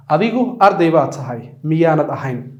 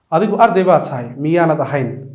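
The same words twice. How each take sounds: The two takes are said the same way.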